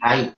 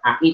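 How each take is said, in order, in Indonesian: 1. Hamzah dilunakkan, berada di antara hamzah dan ya. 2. Hamzah dilafalkan penuh dan jelas. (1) "di antara hamzah dan ya" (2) "bukan ai"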